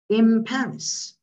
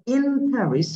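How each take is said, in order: First: The n of in blends into the following p. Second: The n of in is said clearly and separately. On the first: "it become in Paris" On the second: "So in Paris"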